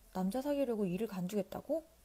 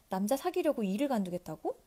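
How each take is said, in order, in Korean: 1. 절제된 말투예요, 크게 놀란 기색은 없어요. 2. 노골적으로 놀라고 비판하는 말투예요. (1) "비판적인 말투나 지나치게 놀란 감정에 섞이지 않도록 자제하면서" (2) "이렇게 읽으면 안 되겠네요"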